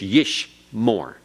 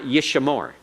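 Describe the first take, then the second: First: No vowel sound comes between 'sh' and 'm'. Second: A short vowel sound follows the 'sh'. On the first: The speaker calls it right. "No sound between the sheen and the main. It's silent" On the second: The speaker calls it wrong. "It's not yish more"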